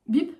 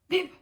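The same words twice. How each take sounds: First: The beep sounds surprised. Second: The beep sounds angry.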